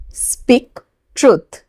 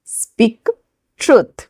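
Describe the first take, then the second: First: Said in the usual way. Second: Slow, each word apart for the class. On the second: Shown as a demonstration. Teacher to students, separating each word slowly. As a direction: spell it out slowly with a gap. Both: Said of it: "English में बोलेंगे".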